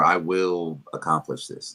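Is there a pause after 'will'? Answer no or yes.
no. It is said without a pause after 'will'. It states a plain intention. "instead of saying"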